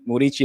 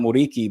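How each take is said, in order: First: The last consonant is a soft ch-like sound. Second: The last consonant is a hard k sound. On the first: The speaker calls it right. "why are they saying Murici" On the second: The speaker calls it wrong. "not Muriki?"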